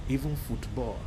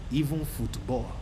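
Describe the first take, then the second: No difference in how they are said.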